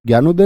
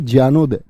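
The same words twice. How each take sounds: First: ज्ञानोदय begun with a gy sound, "gyanoday"; hard g pronunciation. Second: ज्ञानोदय begun with a jy sound, "jyanoday"; j-sound pronunciation. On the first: Teacher showing students the form to reject, gy pronunciation. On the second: Teacher correcting the word for students, jy pronunciation. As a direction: say ज्ञानोदय with JY at the start, falling lower. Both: Shown as a demonstration. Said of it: "ज्ञानोदय नहीं".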